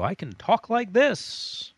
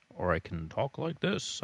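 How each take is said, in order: First: Loud, drawn-out high pitch; exaggerated high voice. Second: Dropped-down, contained voice; contrasting lower voice. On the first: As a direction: swoop way up high, stretching it out. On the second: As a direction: bring the pitch back down low. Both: Shown as a demonstration. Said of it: "My voice can fluctuate if I want".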